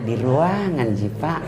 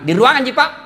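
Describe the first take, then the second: First: It is said in a soft, lilting voice. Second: It is said in a firm, plain voice.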